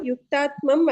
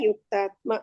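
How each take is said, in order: First: The word ends with a final m sound. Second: The word ends on a vowel, without m. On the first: The speaker calls it wrong. "ಯುಕ್ತಾತ್ಮಂ ಅಲ್ಲ" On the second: The speaker calls it right. "ಯುಕ್ತಾತ್ಮ ಸರಿ ಇದೆ"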